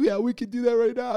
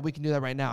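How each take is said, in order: First: High-pitched mock crying voice; imitating yourself crying while agreeing; imitated tearful voice. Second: Said in the usual way. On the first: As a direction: retell it as if choking through tears, pitched way up. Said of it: "I'm sounding like".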